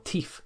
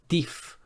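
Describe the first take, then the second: First: The word begins with a t sound. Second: The word begins with a d sound.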